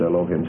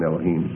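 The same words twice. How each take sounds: First: The word has an English pronunciation. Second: The word has its Hebrew pronunciation. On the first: "sometimes I'll purposely pronounce it Elohim" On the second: "I would be more inclined to use the actual pronunciation"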